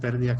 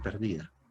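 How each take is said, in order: First: The stress is on the first syllable. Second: The stress is on the second syllable. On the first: "palabra esdrújula que lleva tilde en la E" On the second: "sin tilde"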